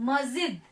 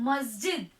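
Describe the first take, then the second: The two takes are said the same way.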